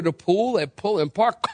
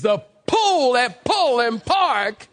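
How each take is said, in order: First: Said in the usual way. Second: Exaggerated, exploded P's in "pool", "Pullen" and "Park", very slow; accentuated P's. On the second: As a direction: pop every P in "pool", "Pullen", "Park" and stretch each word. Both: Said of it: "they accentuate those P's".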